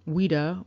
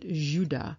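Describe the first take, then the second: First: The name begins with a W sound. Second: The name begins with a J sound. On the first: This is how English speakers said the name. "the English pronounced it Ouida" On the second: This is how French speakers said the name. "the French, however, ... they pronounce it Judah"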